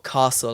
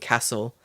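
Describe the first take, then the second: First: It is said in a southern English accent. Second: It is said in a northern English accent. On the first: "I don't say bath or grass or castle" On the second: "I say bath, grass, and castle"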